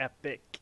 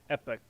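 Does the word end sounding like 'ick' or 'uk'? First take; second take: ick; uk. First: The word ends with an 'ick' sound. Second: The word ends with an 'uk' sound. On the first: "as opposed to E P I C" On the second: "it's like E P U K basically"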